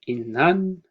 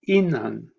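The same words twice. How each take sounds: First: The pitch starts low and rises high. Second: The pitch starts high and falls low. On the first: The word means girl, a feminine noun. "starts off with a low pitch and raises up to a high at the end" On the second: The word means boy, a masculine noun. "starts off with a high pitch, a high tone, uh, which then falls to a low tone"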